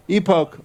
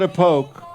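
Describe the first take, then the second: First: "Epoch" starting with a long ee, "EE-poke"; corrected pronunciation. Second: "Epoch" starting with a weak uh, "uh-POKE"; wrong pronunciation. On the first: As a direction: say "Epoch" as EE-poke, falling at the end. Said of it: "don't know how to pronounce that". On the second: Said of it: "It's not Epoch". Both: Shown as a demonstration.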